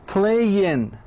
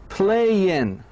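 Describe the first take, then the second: Both takes have the same delivery.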